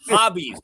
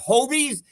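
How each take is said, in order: First: The first vowel is short, as in hobby. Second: The first vowel is long, as in hobo. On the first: The speaker calls it right. "It's hobbies" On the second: The speaker calls it wrong. "It's not Hobies. No one's a hobo"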